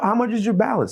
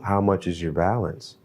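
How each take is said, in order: First: The voice is lively and upbeat. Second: The voice is flat and monotone. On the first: It fails to mirror the other person's tone. The speaker calls it wrong. "you don't want to be" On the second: It mirrors the other person's relaxed monotone. The speaker calls it right. "you're going to actually go back and speak the same way"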